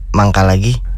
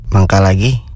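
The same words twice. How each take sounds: First: It is said as if with stomach pain. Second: It is said in a sarcastic tone.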